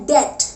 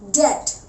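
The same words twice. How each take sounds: No difference in how they are said.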